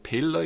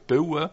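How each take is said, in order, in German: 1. Das Wort wird mit klarem L-Laut gesprochen. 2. Das Wort wird ohne klaren L-Laut gesprochen. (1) "ich sage nicht Pille" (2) "dass ich das L nicht sage"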